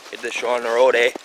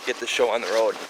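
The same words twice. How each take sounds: First: Put-on a touch of Minnesota accent with a tacked-on eh; mock Minnesota accent. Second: Said in the usual way. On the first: Joking with viewers, a light mock Minnesota accent. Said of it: "We're not from Minnesota here, eh?".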